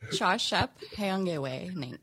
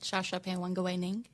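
First: The name is said more slowly. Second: The name is said at normal speed.

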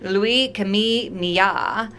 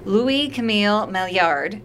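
First: The name is said with a French pronunciation. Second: The name is said with an English pronunciation. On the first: "or in French, now I'm going to butcher this" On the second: "that's the English pronunciation"

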